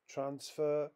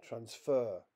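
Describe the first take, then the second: First: TRANSfer, the noun, pitched high on TRANS; stress on first syllable. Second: TransFER, the verb, with stress on FER; stress on second syllable. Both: Shown as a demonstration. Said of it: "More examples".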